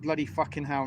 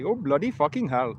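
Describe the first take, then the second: First: It is said in his own English accent. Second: It is said in an imitated Indian accent.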